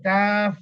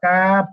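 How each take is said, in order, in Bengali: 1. এটি মুখ খোলা রেখে, f ধ্বনি দিয়ে শেষ হয়। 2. এটি মুখ বন্ধ করে, p ধ্বনি দিয়ে শেষ হয়। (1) "মুখটা খোলা রাখতে হবে যেন বাতাসটা বের হয়" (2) "কাপ এভাবে বলে মুখটা বন্ধ করতেছেন"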